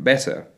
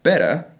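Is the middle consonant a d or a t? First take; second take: t; d. First: The middle consonant is a clear t. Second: The middle consonant sounds like a d. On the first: "different from better" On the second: "reduce the pronunciation of the letter T to a D, saying things like better"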